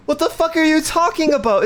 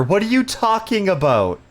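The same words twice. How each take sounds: First: Higher, incredulous outburst; exasperated disbelief. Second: Said in the usual way. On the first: Real, not acted. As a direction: raise the pitch in baffled outrage. Angry game customer again.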